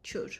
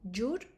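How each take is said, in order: First: It is said with a Western Armenian ch sound. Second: It is said with an Eastern Armenian j sound.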